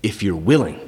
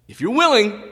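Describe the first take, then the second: First: Said in the usual way. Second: Pleading leper. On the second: Acted. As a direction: cry out the plea high. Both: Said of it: "So you know what he says?".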